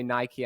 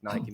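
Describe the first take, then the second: First: It is said the American way, like the guest. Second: It is said the British way.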